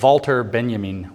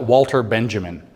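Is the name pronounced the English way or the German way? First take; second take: German; English. First: The name is pronounced the German way. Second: The name is pronounced the English way. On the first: "when you pronounce it in German" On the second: "You're going to spell it"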